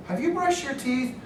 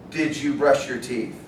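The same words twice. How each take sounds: First: High, pointed parent question; nagging parent. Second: Said in the usual way. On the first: Retold or imitated. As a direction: needle her about the teeth. Parent nagging daughter in car.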